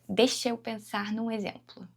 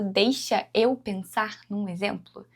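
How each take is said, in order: First: Deixa and eu are joined, final A dropped. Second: Deixa and eu are said separately, final A kept. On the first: The speaker calls it right. "A gente junta" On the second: The speaker calls it wrong. "eu não falo"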